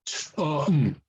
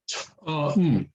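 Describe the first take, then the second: No difference in how they are said.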